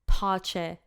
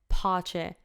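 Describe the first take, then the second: The two takes are said the same way.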